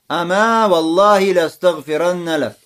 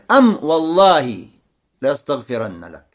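First: The first word ends with a long a vowel. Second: The first word ends on the m sound. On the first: "с алифом" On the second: "без алифа"

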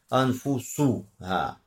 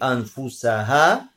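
First: The vowel after the s is a u sound. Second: The vowel after the s is an a sound. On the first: The soul says things to the person. "а можно сказать ма хаддасат бихи анфусуха" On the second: The community says things to its own souls. "то есть фатхай анфусаха"

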